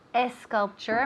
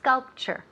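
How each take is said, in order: First: The word begins with an extra e sound. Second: The word begins directly with an s sound. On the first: The speaker calls it wrong. "Not esculpture. Don't put la E fantasma" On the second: The speaker calls it right. "Empieza con S, S, S. Como serpiente"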